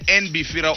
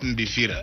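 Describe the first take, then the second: First: The name begins with an n sound. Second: The name begins with an m sound. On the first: The speaker calls it right. "Is it NBFIRA" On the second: The speaker calls it wrong. "or MBFIRA?"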